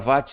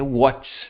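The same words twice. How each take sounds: First: It is pronounced the Portuguese way. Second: It is pronounced the English way. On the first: The speaker calls it wrong. "Mesmo que tenha portuguesado para watts, está errado" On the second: The speaker calls it right. "a pronúncia correta é watts"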